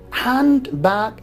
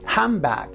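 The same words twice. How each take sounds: First: Handbag is said carefully with a clear 'nd'. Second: Handbag is said quickly, sounding like 'hambag'.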